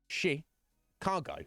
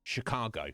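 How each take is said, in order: First: "Chicago" drawn out slowly as shi-KAR-go, higher; slow correct Chicago. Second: Said in the usual way. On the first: Shown as a demonstration. Brit demonstrates the proper Chicago slowly. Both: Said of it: "knows that it is pronounced".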